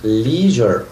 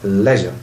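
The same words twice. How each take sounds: First: It is said with an American pronunciation. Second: It is said with a British pronunciation. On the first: "The American people pronounce this word like leisure" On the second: "the British people say"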